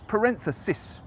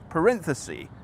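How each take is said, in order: First: The word ends with a short 'sis' sound. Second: The word ends with a long 'ee' sound. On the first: The speaker calls it right. "instead of the expected parenthesis" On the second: The speaker calls it wrong. "as the singular of parentheses"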